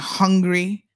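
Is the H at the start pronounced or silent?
pronounced. The word begins with an audible H sound. "instead of like saying hungry"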